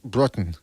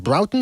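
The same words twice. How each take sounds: First: "Broughton" with an open AW vowel; first syllable of "Broughton" like "bra", trailing lower; alternative pronunciation. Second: "Broughton" with OW as in brown; first syllable of "Broughton" rhymes with cow; trying a pronunciation. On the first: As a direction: say "Broughton" as BRAW-tun. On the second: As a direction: say "Broughton" as BROW-tun. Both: Shown as a demonstration. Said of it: "how do you pronounce it".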